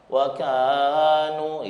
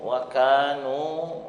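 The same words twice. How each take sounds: First: The long vowel is held for three counts. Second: The long vowel is held for two counts. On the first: The speaker calls it wrong. "itu tiga namanya" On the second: The speaker calls it right. "matobi dua saja"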